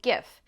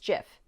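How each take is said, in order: First: It begins with a hard G sound. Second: It begins with a soft G sound. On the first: "you'd pronounce the G just like in graphics, so GIF" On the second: "It is a soft G, pronounced GIF"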